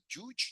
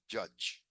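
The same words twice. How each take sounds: First: The vowel is not the vowel of 'up'. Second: The vowel is the vowel of 'up'. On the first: The speaker calls it wrong. "you don't say judge" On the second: The speaker calls it right. "you say judge"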